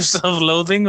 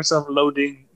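First: "loathing" with a TH in the middle; distinct TH. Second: "loading" with a D in the middle; D in place of TH. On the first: Asking which word was said, "loathing" with TH. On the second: Asking which word was said, "loading" with D. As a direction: say "loading" with a hard d sound. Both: Shown as a demonstration. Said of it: "did you say self-loathing or self-loading".

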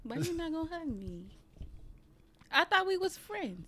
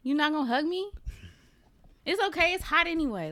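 First: High, whiny playful plea for a hug; mock pleading. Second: High playful whine that shrugs it off; mock pleading. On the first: Asking her co-host why he won't hug her, high mock whine. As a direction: pout and beg like a hurt kid. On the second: Teasing her co-host over the refused hug, high mock pout. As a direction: beg once more, then pretend not to care.

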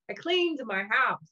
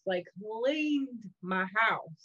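First: Said in the usual way. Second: "cleaned" stretched slow and leaned on; drawn-out, emphatic "cleaned my house"; really cleaned. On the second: Shown as a demonstration. Stressing to the host how thoroughly she cleaned, slow emphasis.

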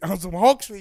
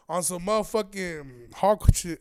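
First: Loud, laughing through it; laughing repeat. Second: Slow, drawn-out build; slow punchline. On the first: Repeating the Hulk joke to listeners, laughing. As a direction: crack up on the repeat. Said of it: "repeated phrase, second take". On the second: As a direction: stretch it out for the joke. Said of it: "repeated phrase, first take". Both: Real, not acted.

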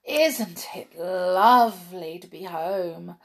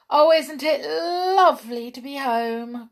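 First: Slow, savoured, contented line; a blissful brownie sighing it slowly; dreamy joy. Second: Higher, louder delighted cry; overjoyed brownie crying out; cried with joy. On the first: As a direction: stretch it out lazily as if lying back. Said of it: "cried Skip". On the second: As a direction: burst out happy to be home. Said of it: "cried Hop". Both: A narrator's reading.

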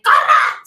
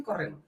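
First: Loud, high shout of alarm; panicked yell. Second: Said in the usual way. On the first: Retold or imitated. Warning her friend as a stampede comes, shouted high. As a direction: yell it as the crowd charges. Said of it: "le dije". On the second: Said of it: "Sí, te dije".

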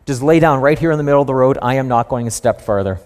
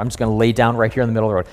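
First: Stubborn donkey. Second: A hint of a donkey, words tumbling out fast; rushed fed-up donkey. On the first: Retold or imitated. Donkey refusing to move for Balaam, mildly stubborn. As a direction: plant your feet and say it flatly. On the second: Donkey refusing Balaam, rattling it off fast. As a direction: gabble it like a donkey who's had enough. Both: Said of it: "The donkey's like".

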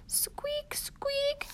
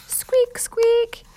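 First: High, tiny whispered squeak; whispered mouse squeak. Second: High, loud squeaky mouse noise; mouse squeak. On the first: Peanut the mouse squeaks as Jack leaves, high whispered squeak. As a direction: squeak softly like a little mouse. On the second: Peanut the mouse squeaks in alarm, high and loud. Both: Acted.

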